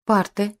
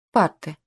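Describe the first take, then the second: First: Raised-pitch surprised echo. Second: Said in the usual way. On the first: A narrator's reading. Children puzzled in the classroom, surprised. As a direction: say ПАРТЫ higher, as a puzzled echo. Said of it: "Дети удивлённо переглянулись". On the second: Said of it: "кивнул генерал".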